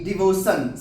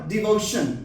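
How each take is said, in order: First: The ending is pronounced with 's'. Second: The ending is pronounced with 'sh'. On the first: The speaker calls it wrong. "सन नहीं है" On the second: The speaker calls it right. "शन है"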